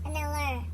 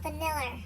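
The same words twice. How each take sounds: Both takes have the same delivery.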